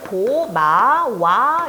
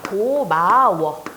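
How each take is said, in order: First: The word ends with a 'wa' sound. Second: The word ends with a 'wo' sound. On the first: It follows vowel harmony but is not what people say. The speaker calls it wrong. "고마와 이렇게 해야 되거든요" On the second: It is the standard form people actually use. The speaker calls it right. "우로 바뀌어서 고마워"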